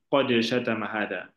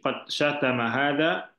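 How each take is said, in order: First: The d of qad has an echoing bounce. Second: The d of qad is plain, without an echo. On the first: The speaker calls it wrong. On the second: The speaker calls it right. "Jadi tidak usah diqalqalahkan. ... seperti itu ya"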